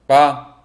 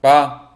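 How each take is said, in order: First: The syllable is short and light. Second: The syllable is short and light.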